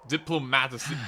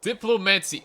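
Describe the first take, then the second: First: "Diplomacy" said haltingly, rising at the end, unsure; stumbling pronunciation. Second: "Diplomacy" said firmly with a falling end; corrected pronunciation. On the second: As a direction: state "Diplomacy" with confidence, falling. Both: Shown as a demonstration. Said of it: "Oh my god, I can't talk".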